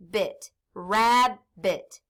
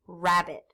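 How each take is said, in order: First: Drawn-out blend of rab and bit; slow blending. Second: Said in the usual way. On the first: Shown as a demonstration. Teacher blending syllables for class, slowly. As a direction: stretch the word out as you blend it. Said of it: "So I can sound it out now". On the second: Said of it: "So what's my word?".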